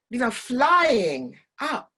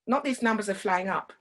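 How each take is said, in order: First: "flying" drawn out slow and high; stretched vowels. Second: Said in the usual way. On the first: Shown as a demonstration. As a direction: draw out "flying up" with excitement. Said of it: "play with the vowels".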